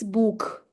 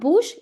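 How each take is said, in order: First: The word ends with a harsh kh sound. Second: The word ends with a soft sh sound. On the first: The speaker calls it right. "I'm saying kh here, book" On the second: The speaker calls it wrong. "it's not bush"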